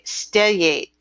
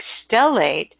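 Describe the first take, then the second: First: The middle consonant is sounded like a Y. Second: The middle consonant is a plain L sound.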